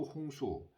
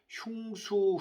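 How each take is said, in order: First: The first syllable is said as plain 'hong'. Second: The first syllable is said as glided 'hyung'. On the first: It is the easier, dialect way of saying it. "발음하기 편하게 홍수" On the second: It is the original, harder-to-say form. "흉수 어렵잖아요"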